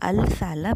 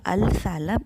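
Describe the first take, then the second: First: The l of the article is clearly pronounced. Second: The l of the article is clearly pronounced.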